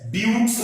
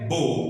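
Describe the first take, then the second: First: The final x is pronounced as ks. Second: The final x is silent. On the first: The speaker calls it wrong. "ब्यूक्स नहीं है ये" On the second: The speaker calls it right. "ये है बो"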